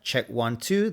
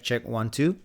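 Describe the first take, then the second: First: The low bass is cut by a filter. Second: The low bass is left unfiltered and full. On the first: "that's in" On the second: "Now that's out"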